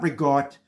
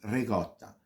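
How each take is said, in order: First: The final vowel is dropped from the word. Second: The word ends with a clear final vowel. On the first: The speaker calls it wrong. "It's not rigot. ... They always leave out the a" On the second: The speaker calls it right. "It's ricotta. That's the ... correct pronunciation"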